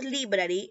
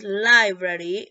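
First: Library said lee-brah-ree, Spanish i; wrong pronunciation. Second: Library said LAI-brary, slow and louder; library with English "lai"; right pronunciation. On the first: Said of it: "No es library". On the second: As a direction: stretch library as LAI-brah-ree. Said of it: "No es library, es library". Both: Shown as a demonstration.

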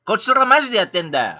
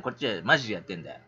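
First: Louder and fast, hitting マジ hard; blunt insistent outburst; forceful insistence. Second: Said in the usual way. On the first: Real, not acted. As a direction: drive the point home angrily. Repeats it, now forcefully.

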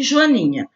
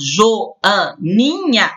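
First: Said in the usual way. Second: "Joaninha" very slowly split into four syllables. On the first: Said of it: "também quatro sílabas". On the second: Shown as a demonstration. Teacher counting syllables for pupils, "Joaninha" slowly sounded out in parts. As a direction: break "Joaninha" into jo, a, ni, nha. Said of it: "separe as sílabas".

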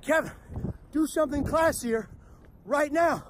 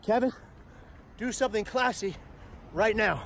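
First: "classier" pitched up high, urgent; the brain's order, now higher and pushier; panicked inner voice. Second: Inner voice. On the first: His brain urging him mid-disaster, higher and urgent. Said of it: "my brain reacted again". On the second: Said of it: "But my brain reacts". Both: Retold or imitated.

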